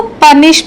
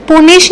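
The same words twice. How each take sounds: First: पनिश with a short a vowel, as the correct way; right pronunciation. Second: पुनिश with an oo vowel, as the wrong way; wrong pronunciation. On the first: Teacher gives students the correct पनिश, short a sound. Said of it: "पनिश बोलना है". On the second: Teacher shows students the wrong way, पुनिश with oo. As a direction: show the mistake: पुनिश said with oo. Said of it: "पुनिश नहीं बोलना है इसको". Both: Shown as a demonstration.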